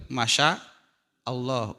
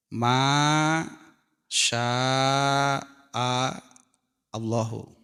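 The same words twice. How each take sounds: First: Masya Allah run together quickly, Indonesian style; Indonesian pronunciation. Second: Masya Allahu said as Arabic, Masya drawn out, Allahu apart; Arabic pronunciation. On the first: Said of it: "Kalau di bahasa Indonesia memang disatukan itu". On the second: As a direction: say Masya Allahu the Arabic way, two separate words. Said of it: "Arabnya terbayang". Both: Shown as a demonstration.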